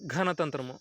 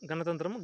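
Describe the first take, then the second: First: The first consonant is aspirated, with a breath. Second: The first consonant is plain, without aspiration. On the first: It refers to the system of trees. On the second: It refers to the demons' system.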